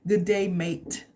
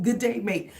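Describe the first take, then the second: First: Light mock Australian "Good day, mate"; a hint of an Aussie greeting; casual Australian twang; Australian accent. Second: "Good day, mate" in a laughing mock Australian; playful Australian hello; Australian accent. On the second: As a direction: chuckle into an Aussie greeting. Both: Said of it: "This is an Australian".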